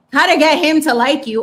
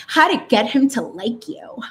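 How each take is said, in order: First: Higher and louder, mocking "How to get him to like you"; mocking repeat. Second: Said in the usual way. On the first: Mocking a Cosmo headline to listeners, louder and sarcastic. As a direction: hammer the headline again with scorn. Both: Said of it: "and it's like".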